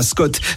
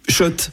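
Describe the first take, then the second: First: The name begins with an 'sk' sound. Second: The name begins with an 'sh' sound. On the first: The speaker calls it wrong. "Ça fait des années qu'on prononce mal la marque" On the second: The speaker calls it right. "Shot et pas Scott"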